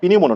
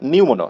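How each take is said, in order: First: The word begins with a sounded P. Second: The word begins with an N sound. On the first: The speaker calls it wrong. "পিনিউমোনো বলা যাবে না, পিনিউমোনো না" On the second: The speaker calls it right.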